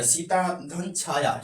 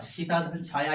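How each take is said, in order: First: Slow example. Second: Said in the usual way. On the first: Shown as a demonstration. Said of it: "Sita धन छाया example लेते हैं". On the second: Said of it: "example लेते हैं".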